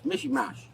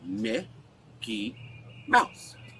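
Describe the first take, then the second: First: The words are garbled, like a toddler's speech. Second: The words are pronounced clearly and fully. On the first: This is how the child says it. The speaker calls it wrong. "he doesn't know how to say Mickey Mouse. He goes" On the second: This is how the adult says it. The speaker calls it right. "I say"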